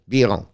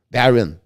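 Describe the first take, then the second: First: Biron said the French way, bee-ROH with the n dropped; French pronunciation. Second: Byron said the English way, BYE-ron; anglicized Byron, stress on the first syllable; English reading. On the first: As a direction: Biron in French, light stress on the last syllable. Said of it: "Biron in French, better". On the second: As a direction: Byron as an English speaker reads it. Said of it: "It's hard to say Byron or Biron". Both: Shown as a demonstration.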